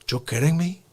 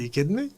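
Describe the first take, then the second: First: It is said in a Scarface impression voice. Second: It is said in his normal voice.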